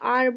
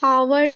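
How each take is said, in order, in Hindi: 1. यह शब्द स्वर से शुरू होता है, इसमें h नहीं है। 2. यह शब्द h की ध्वनि से शुरू होता है। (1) "आर बोलते हैं" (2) "हावर नहीं बोलते"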